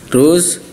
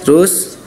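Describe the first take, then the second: No difference in how they are said.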